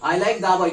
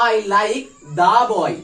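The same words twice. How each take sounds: First: Said in the usual way. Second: Put-on "the" in "I like the boy" leaned on, every word drawn out very slowly and louder; teacher stressing "the", words drawn out; slow stressed demo. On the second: Shown as a demonstration. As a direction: land hard on "the" while dictating the sentence slowly. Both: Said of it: "তখন আমি বলবো".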